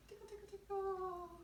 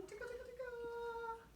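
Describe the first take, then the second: First: High, playful tickle chant; bouncy high tickle chant for a toddler class; sing-song tickle. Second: Sing-song tickle. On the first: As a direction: chant it high for little kids. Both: Shown as a demonstration. Leading kids in a finger warm-up.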